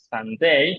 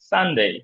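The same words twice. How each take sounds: First: The stress is on the last syllable. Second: The stress is on the first syllable. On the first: The speaker calls it wrong. "Sunday এমন না" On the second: The speaker calls it right. "সবগুলোতেই শুরুতে stress"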